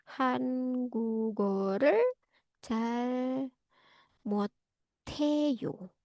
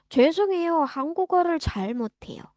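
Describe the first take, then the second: First: Soft, drawn-out syllables with gaps between words; slow dictation. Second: Brisk apology, higher on 죄송해요 then falling away; natural conversational demo. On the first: Teacher writing the phrase for students, slow dictation. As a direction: sound out 한국어를 잘 못해요 slowly and quietly. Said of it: "Ini saya tulisin di chat box". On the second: Learner answering a Korean person, brisk polite apology. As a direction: run 한국어를 잘 못해요 together quickly. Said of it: "kita bisa jawab kayak gitu aja". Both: Shown as a demonstration.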